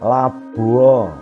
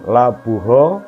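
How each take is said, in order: First: No h sound is heard before the final vowel. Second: A clear h sound is heard before the final vowel. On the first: The speaker calls it right. "seperti lawue, hanya samar" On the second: The speaker calls it wrong. "Jadi bukan labuho"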